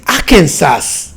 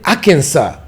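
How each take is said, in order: First: Arkansas with the final S sounded; pronounced as spelt. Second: Arkansas with the final S silent; American pronunciation. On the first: African learner reading out a US state, "Arkansas" with final S voiced as written. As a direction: read "Arkansas" as spelt, ending in "sas". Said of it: "they are not pronounced the way you read them". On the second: Telling how the American's state is said, "Arkansas" with silent final S. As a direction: end "Arkansas" on an open "saw", no S. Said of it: "but how do you pronounce it". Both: Retold or imitated.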